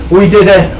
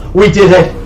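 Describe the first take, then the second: No difference in how they are said.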